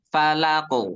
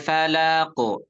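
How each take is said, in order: First: The word ends on q without a vowel. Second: The word ends with an added u vowel. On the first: The speaker calls it right. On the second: The speaker calls it wrong.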